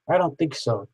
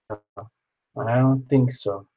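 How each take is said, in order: First: Said in the usual way. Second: Stretched way out, slowly; slow drawn-out. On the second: Acted. Checking the list, said very slowly. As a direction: drag out each word.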